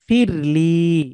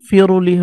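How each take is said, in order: First: The r runs straight into the l. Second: An extra vowel sounds between r and l. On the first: The speaker calls it right. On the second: The speaker calls it wrong.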